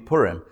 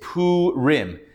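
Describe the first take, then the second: First: The vowels are reduced in quick everyday speech. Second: Every vowel is given its full length. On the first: This is the everyday name of the holiday. "you know the holiday to be Purim" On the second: This is the literal reading of the written vowels. "if you read the vowels, and literally, tripping on things, it's Purim"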